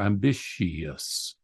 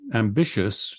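First: The word is spoken with four syllables. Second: The word is spoken with three syllables. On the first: "but sometimes four" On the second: "a three-syllable word for us"

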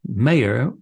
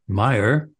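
First: The first vowel sounds like 'may'. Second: The first vowel sounds like 'my'. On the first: This would break American pronunciation rules. The speaker calls it wrong. "whereas Mayer would have been a mispronunciation" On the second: This follows American pronunciation rules. The speaker calls it right. "Meyer is the right pronunciation by American English phonology rules"

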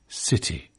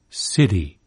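First: The t is aspirated with a breathy puff. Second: The t is voiced and tapped like a quick d. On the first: "It's aspirated, whispered, in British English" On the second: "voiced and even tapped, as in American city"

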